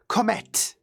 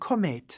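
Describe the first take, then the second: First: The final T is pronounced hard and strong. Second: The final T is pronounced soft and light. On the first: "in French you have to say Comet, as if there were ten T's" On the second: "I kind of prefer the softer version"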